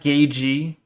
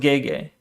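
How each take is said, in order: First: The second part sounds like gee. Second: The second part sounds like gay. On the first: The speaker calls it wrong. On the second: The speaker calls it right.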